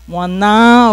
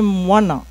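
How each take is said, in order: First: The stress is on the last syllable. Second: The stress is on the second syllable. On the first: This follows French stress habits. The speaker calls it wrong. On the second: This follows Tahitian stress. The speaker calls it right.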